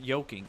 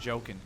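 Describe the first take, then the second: First: The word begins with a Y sound. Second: The word begins with a J sound. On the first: The speaker calls it wrong. "I used to say yoking" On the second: The speaker calls it right. "instead of joking"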